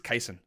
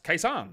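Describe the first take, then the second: First: The name is said as Cason. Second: The name is said as K-San. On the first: The speaker calls it right. "but it's not, it's Cason" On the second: The speaker calls it wrong. "someone said it was, oh, it's K-San"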